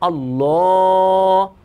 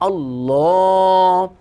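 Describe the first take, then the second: First: The L is heavy and thick. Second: The same.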